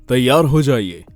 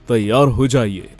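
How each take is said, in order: No difference in how they are said.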